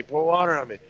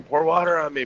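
First: Imitating the plea again, pitched high; mock scream repeated. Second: Imitating a stung guy pleading, pitched high; mock scream. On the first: Stung soldier begging again for water, mock high cry. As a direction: echo the panicked cry, lightly. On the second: Stung soldier begging for water, mock high cry. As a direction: retell his panicked cry, lightly. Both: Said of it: "he hears this one guy screaming".

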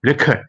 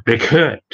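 First: "record" as REC-ord, opening on a stressed "rek"; stress on first syllable. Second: "record" as ri-CORD, the verb form; light "ri", weight on the end of "record"; stress on second syllable. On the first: Presenter contrasts noun with verb, first-syllable stress. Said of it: "คำนามอ่าน". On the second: Presenter contrasts verb with noun, second-syllable stress. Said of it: "ส่วนคำกริยาอ่าน". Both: Shown as a demonstration.

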